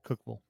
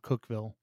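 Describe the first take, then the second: First: The syllables of the name are run together. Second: Each syllable of the name is said clearly.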